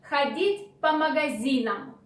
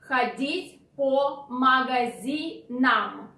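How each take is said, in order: First: The phrase is said quickly and smoothly. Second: The phrase is said slowly and carefully.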